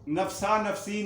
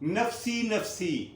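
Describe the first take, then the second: First: The first word ends in an 'a' sound. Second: The first word ends in an 'i' sound. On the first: The speaker calls it wrong. "नफसा नफसी नहीं, वो गलत है" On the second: The speaker calls it right. "ये दुरुस्त है"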